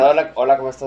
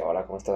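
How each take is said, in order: First: The greeting sounds confident and direct. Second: The greeting sounds passive and insecure.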